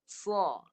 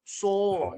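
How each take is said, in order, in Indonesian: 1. Mulut dibuka lebar, bibir tidak dibulatkan. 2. Bibir dimajukan dan dibulatkan. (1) "Lebar. ... Baru tepat" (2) "Dia muncung. Salah, salah"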